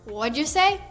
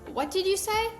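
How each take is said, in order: First: The words run together like one word. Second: Each word is said separately and fully. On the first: This is how people actually say it. "it sounds like one long word" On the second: This is how it looks written down. "When you read it, it looks like"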